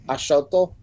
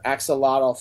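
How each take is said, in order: First: The word is said in its pretentious native form. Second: The word is said in its common English form. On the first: "It's it's pronounced Ashoto" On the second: "for those who don't pronounce it the pretentious way"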